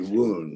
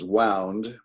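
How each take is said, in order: First: The vowel sounds like 'oo'. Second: The vowel sounds like 'ow'. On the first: It means an injury. "the injury" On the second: It means wrapped around. "the bandage was wound around"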